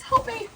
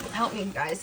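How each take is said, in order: First: Pleading cry, much higher; mock plea. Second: Said in the usual way. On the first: Real, not acted. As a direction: squeak out a playful plea for help. Begging viewers for advice.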